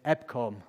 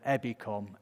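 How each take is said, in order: First: The word is said without an extra vowel. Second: An extra vowel is inserted after the B. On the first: This is the ordinary way of saying the name. "is EBCOM" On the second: This is how the local people say the name. "or as they call it, EBICOM. Almost every word where there's a vowel, they'll add an extra one"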